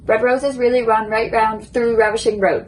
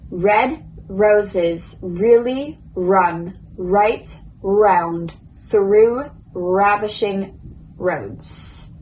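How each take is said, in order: First: The sentence is spoken as fast as possible. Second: The sentence is spoken slowly and carefully. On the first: "now I'm going to try to say it as quick as I can" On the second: "So first, slow"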